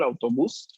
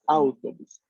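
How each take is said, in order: First: The stress is on the last syllable. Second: The stress is on the first syllable. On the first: This is the Spanish pronunciation. "la pronunciación del, eh, del español" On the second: This is the Italian pronunciation. "El acento tónico de la palabra está en la primera sílaba"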